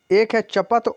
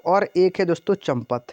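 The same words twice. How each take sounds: First: चपत said without any m; no nasal in चपत. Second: चंपत said with an m before the p; nasal in चंपत. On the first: Teacher contrasts two words for students, no m in चपत. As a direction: go straight from च to पत in चपत. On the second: Teacher contrasts two words for students, added m in चंपत. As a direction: sound the m clearly in चंपत. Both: Shown as a demonstration. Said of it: "चपत और चंपत का अर्थ".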